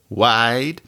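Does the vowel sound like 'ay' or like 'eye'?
eye. The vowel sounds like the 'i' in wide. "A pronounced more like I"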